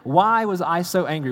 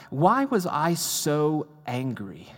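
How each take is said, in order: First: Why higher and louder, pressing the question; louder insistent. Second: Why said very slowly, drawn out and pensive; slow wondering. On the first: Preacher questioning himself before the congregation, louder and higher. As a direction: demand it of yourself, louder. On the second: Preacher retelling his morning reflection, slow and wondering. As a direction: ask it slowly, turning it over. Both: Shown as a demonstration.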